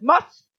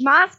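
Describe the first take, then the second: First: The vowel is a rounded 'o' sound. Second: The vowel is an open 'ah' sound. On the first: The speaker calls it right. "das heißt Moss" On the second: The speaker calls it wrong. "Letzte Woche habe ich Maß gesagt, da hat man mich sehr korrigiert"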